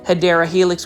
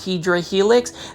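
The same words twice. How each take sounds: First: The name is said with the standard pronunciation. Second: The name is said with the joke mispronunciation. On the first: The speaker calls it right. "the correct way of saying it" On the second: The speaker calls it wrong. "the mispronunciation"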